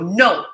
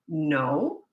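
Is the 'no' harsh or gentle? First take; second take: harsh; gentle. First: The no is said harshly and sharply. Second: The no is said gently and calmly.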